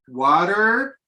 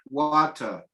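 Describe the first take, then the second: First: The final R sound is pronounced. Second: The final R sound is silent.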